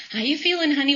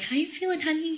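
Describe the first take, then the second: First: Imitated mom's routine question, pitched high; high-pitched imitation of a mother checking in; obligatory mom check-in. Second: High, gentle mom voice; softly pitched-up motherly question; nurturing mom. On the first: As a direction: play mom asking out of habit, in a higher voice. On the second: Retold or imitated. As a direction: imitate mom checking in tenderly, high and unforced. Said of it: "in her nurturing, wonderful ways".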